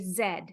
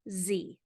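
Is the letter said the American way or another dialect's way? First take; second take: other dialect; American. First: The letter is said as in non-American dialects. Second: The letter is said as in American English. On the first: "In uh, other English dialects, they say Z" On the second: "But in American English, we say Z"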